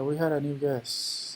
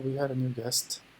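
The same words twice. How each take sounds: First: The final t sound is dropped. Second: The final t sound is clearly pronounced. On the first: The speaker calls it wrong. "así se pronuncia como, como quiera" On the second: The speaker calls it right. "un poco más acentuado... pronuncia ya con la T"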